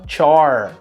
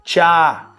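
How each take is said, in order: First: The R sound is pronounced with a curled tongue. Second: The R sound is dropped after the vowel. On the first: "com esse R retroflexo do inglês americano" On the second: "Ela tirou esse R, chama dropped R"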